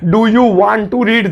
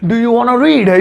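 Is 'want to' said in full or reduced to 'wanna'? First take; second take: full; reduced. First: Want to is said fully as two words. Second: Want to is blended quickly into wanna. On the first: "दो तीन घंटे लग रहे हैं इसे बोलने में" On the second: "एक सेकंड में बोल दो"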